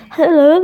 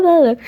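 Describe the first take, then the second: First: High, loud bright hello; sudden loud high hello; excited hello. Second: High loud hello falling at end; loud high hello, dropping; excited hello. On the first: Excited greeting mid-reading. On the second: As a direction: answer the greeting happily. Second greeting falls. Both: Real, not acted.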